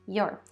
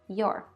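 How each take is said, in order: First: One short contracted syllable is said. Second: The same.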